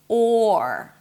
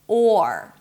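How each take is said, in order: First: It has a long open O vowel. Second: The same.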